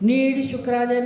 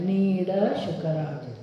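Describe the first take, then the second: First: The 'd' sound in 'nid' is swallowed. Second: The 'd' sound in 'nid' is clearly heard. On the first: The speaker calls it wrong. "નહીં" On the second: The speaker calls it right. "ડ સ્પષ્ટ સંભળાવજો"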